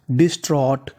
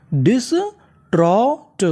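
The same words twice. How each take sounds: First: Said in the usual way. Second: डिस्ट्रॉट very slow and higher, in separate pieces; syllable-by-syllable. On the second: Shown as a demonstration. Teacher repeats the full word for learners, syllable-by-syllable. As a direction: stretch each sound of डिस्ट्रॉट, lifting the pitch. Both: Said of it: "तो पूरी meaning".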